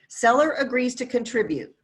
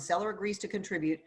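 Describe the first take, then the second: First: It is said at a slower pace. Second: It is said at a faster pace.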